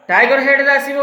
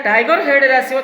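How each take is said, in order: Both takes have the same delivery.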